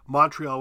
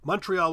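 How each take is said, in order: First: Montreal is said with an American pronunciation. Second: Montreal is said with an Ontario pronunciation. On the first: "Montreal would be the U.S" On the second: "Montreal would be Ontario"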